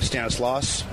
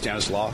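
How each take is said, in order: First: The final S sound is pronounced. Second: The final S sound is silent. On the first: This is how the speaker habitually says it. "I say Stanislaus" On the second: This is how the speaker thinks it should be said. "but I think it's Stanislaw. That's a silent"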